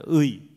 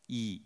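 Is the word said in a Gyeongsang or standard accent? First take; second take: standard; Gyeongsang. First: The vowel is a standard gliding 'ui' sound. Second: The vowel is flattened to a plain 'i' sound.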